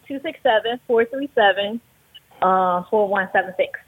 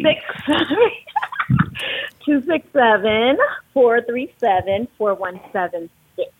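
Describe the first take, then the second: First: The number is said at normal, quicker speed. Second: The number is said slowly.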